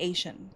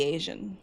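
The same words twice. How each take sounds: First: "Asian" said with a sh in the middle, AY-shun; unvoiced sh sound in "Asian"; preferred pronunciation. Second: "Asian" said with a zh in the middle, AY-zhun; voiced zh sound in "Asian"; rejected pronunciation. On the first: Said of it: "So it's definitely". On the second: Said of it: "'Cause it can't be Asian". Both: Shown as a demonstration.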